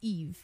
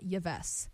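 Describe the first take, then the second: First: The name ends with a v sound. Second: The name ends with an s sound. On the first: The speaker calls it right. "It's Eve" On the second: The speaker calls it wrong. "You know how I pronounce that? Yves. But it's not Yves"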